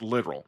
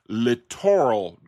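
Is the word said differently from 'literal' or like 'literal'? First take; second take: like literal; different. First: The word sounds exactly like 'literal'. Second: The word sounds different from 'literal'. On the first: The speaker calls it right. "it's actually correctly pronounced literal" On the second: The speaker calls it wrong. "looks like it should be pronounced littoral drift"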